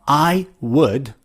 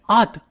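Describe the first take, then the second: First: It is said as two full words. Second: It is said as one short contraction. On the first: "instead of I would" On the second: "you can say I'd"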